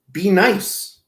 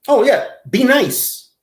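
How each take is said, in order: First: Said in the usual way. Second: High, loud mocking be nice; sarcastic advice. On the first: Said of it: "repeat advice". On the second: Mocking G-Man's request for advice, a sarcastic high be nice. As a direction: toss it off with a smirk. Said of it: "advice to G-Man".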